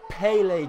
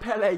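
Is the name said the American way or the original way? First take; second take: American; original. First: The name is said with an American pronunciation. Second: The name is said with its original pronunciation. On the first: The speaker calls it wrong. "These Americans need to understand how to pronounce Pele" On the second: The speaker calls it right. "so fucking pronounce it Pele"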